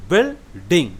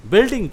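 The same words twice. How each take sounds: First: "बिल्डिंग" in two beats, बिल, pause, डिंग; split into syllables. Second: Said in the usual way. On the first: Shown as a demonstration. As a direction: say "बिल्डिंग" broken after बिल. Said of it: "ये दो बार में". ("बिल्डिंग" को दो हिस्सों में: बिल, डिंग) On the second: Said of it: "उसको जोड़ के दोबारा".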